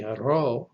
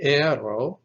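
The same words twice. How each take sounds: First: Aro with the accent on final RO; stress on last syllable. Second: Aero stressed in the middle, di-AI-ro; stress on middle syllable. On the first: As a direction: lean on the RO at the end of aro. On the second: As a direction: lean on the middle vowel of aero. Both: Shown as a demonstration. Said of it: "the only difference is in the accent".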